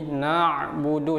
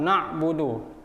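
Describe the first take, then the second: First: The ain sound flows slightly before continuing. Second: The ain sound is cut off abruptly. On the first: The speaker calls it right. "Harus ada aliran sedikit" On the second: The speaker calls it wrong. "tidak boleh langsung kita potong"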